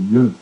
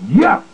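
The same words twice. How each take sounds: First: The word is said quietly and weakly. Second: The word is yelled loudly and strongly.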